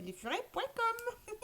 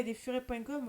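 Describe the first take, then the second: First: High, slow singsong "lesfurets point com" like a TV ad tag; mock ad jingle. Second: Said in the usual way. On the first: Shown as a demonstration. Streamer parodying the lesfurets.com TV ad, slow high singsong. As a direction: croon the brand name as a jingle. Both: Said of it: "Je fais de la pub".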